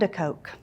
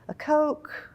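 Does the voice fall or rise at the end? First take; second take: fall; rise. First: The voice falls at the end. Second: The voice rises at the end. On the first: The list is finished. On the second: Something more is expected to follow.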